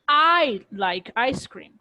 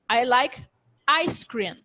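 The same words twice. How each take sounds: First: The stress falls on the word I. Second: The stress falls on ice cream. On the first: "I am kind of implying that it's not someone else who likes ice cream. It's me" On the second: "if I emphasize on ice cream"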